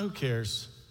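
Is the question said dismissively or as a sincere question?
dismissive. It is said dismissively, brushing the matter off. Nobody should bother about this.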